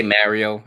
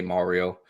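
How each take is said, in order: First: Mario said as "Merio", first vowel like "bed"; his own Mario. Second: Mario with a broad "ah", like "car"; standard Mario. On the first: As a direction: say Mario with an open e, as in merry. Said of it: "that's how I pronounce it". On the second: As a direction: say Mario the usual way, with "Mah". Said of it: "I don't say Mario". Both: Shown as a demonstration.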